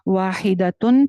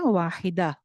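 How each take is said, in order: First: The word ends with a full ending. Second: The word ends clipped, with a silent h. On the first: The reading continues without a stop. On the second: The reader stops on this word.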